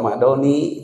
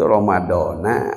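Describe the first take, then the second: First: The word ends with an 'i' vowel. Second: The word ends with an 'a' vowel. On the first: The speaker calls it wrong. "kata sebagian orang, dibacanya Romadoni" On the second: The speaker calls it right. "Itu yang betul itu Ramadona atau Ramadoni"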